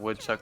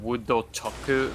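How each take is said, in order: First: Plain English, with no extra vowels added. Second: Extra vowels are added after the consonants.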